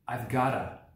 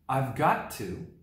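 First: Got and to blend into one short word. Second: Got and to are said fully and separately.

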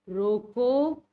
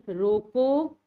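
The two takes are said the same way.

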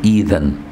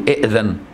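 First: The word begins with a long i vowel. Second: The word begins with two glottal stops. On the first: The speaker calls it right. "لا تقول إذن، دي البداية" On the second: The speaker calls it wrong. "مش تقول إئذن"

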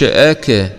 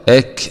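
First: The final k ends with a bouncing echo. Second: The final k ends with a breathy release. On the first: The speaker calls it wrong. "ما تقولش أك غلط" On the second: The speaker calls it right. "أك همس فقط"

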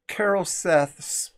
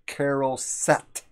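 First: The word ends with a soft th sound. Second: The word ends with a hard t sound. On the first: This is the ancient Hebrew pronunciation. "it ends with a TH" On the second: This is the later common pronunciation. "they just pronounce it as a hard T"

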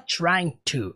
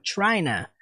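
First: Both words are said fully and separately. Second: The words are merged into one reduced word. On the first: "Ele não fala trying to" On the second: "Ele fala como? China"

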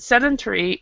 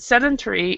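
First: It is said with the British pronunciation. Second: It is said with the British pronunciation.

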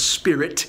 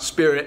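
First: The final T is crisply pronounced. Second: The final T is dropped or barely heard. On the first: The speaker calls it right. "so we can finally get that silent T" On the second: The speaker calls it wrong. "It's not spirit"

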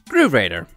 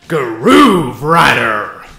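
First: It is said plainly, without extra energy. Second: It is said loudly with extra energy.

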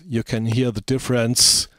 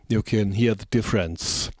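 First: The s sounds are sharp and sibilant. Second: The s sounds are dynamically softened. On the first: The speaker calls it wrong. "I switch it off again" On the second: The speaker calls it right. "And dynamic EQ switch on"

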